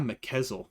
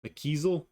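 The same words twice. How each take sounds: First: McKezel said flat and falling, as a rejected guess; testing McKezel as a possible pronunciation; first try at the name. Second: McKezel? asked with a rising, questioning tune; groping for how to say McKezel; unsure second try. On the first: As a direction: say McKezel plainly, then reject it. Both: Real, not acted. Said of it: "it's not McKezel".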